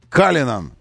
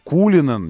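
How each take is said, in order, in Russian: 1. Первая гласная звучит как a. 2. Первая гласная звучит как u. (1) "а Калинан. Вот так, на английский манер нужно произносить" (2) "не Кулинан"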